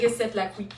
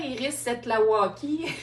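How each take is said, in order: First: The surname has no added 'wa' syllable. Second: The surname has an added 'wa' syllable. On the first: The speaker calls it right. "Mais c'est Iris Setlaqui, effectivement" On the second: The speaker calls it wrong. "il a prononcé"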